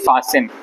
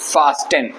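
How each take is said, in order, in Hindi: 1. बीच में कोई t की आवाज़ नहीं बोली जाती। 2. बीच में t की आवाज़ बोली जाती है।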